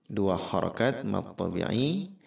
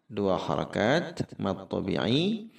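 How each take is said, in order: Both takes have the same delivery.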